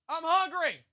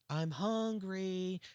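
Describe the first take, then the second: First: It is yelled loudly across the room. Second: It is said quietly, in an indoor voice.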